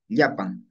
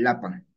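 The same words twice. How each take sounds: First: Yapan with a palatal "ly" onset; double-L form. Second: Lapan with a plain l; single-L form. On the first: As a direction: say Yapan as "LYA-pan", low pitch. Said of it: "cómo pasa de doble L". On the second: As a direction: say lapan as "LA-pan". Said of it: "a una sola L". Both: Shown as a demonstration.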